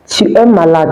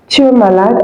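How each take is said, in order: First: It is said as a plain, neutral statement. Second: It is said with a questioning tune. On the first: The listener is ill. "just like as I'm saying now, it means you are sick" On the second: It asks whether the listener is ill. "if I want to ask a question"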